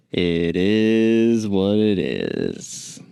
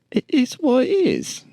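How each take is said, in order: First: "It is what it is" drawled very slowly in a put-on foreign guide accent; vague foreign tour guide accent. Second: "it is what it is" repeated much higher, in a squeaky disbelieving tourist voice; incredulous tourist. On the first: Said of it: "I don't know what that accent was from". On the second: Acted. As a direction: echo the guide in a high, baffled voice. Tourist echoing the guide.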